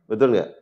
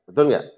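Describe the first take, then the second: The two takes are said the same way.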